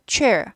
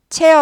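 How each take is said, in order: First: It is said with English sounds and an r. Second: It is said with flat Korean sounds, no r. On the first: The speaker calls it right. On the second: The speaker calls it wrong.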